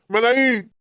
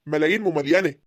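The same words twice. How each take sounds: First: ملايين said louder and proudly, falling; boastful exclaim. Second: Said in the usual way. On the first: Acted. Boasting about land value.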